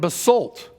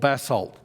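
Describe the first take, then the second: First: It is said with an American pronunciation. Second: It is said with an Australian/English pronunciation.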